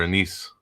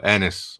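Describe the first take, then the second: First: "anise" said uh-NEESE; uh-NEESE pronunciation. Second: "anise" said AN-iss; short A and weak ending in "anise"; AN-iss pronunciation. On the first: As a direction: stress the second syllable of "anise". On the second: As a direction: stress the first syllable of "anise". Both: Shown as a demonstration. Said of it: "What about, uh".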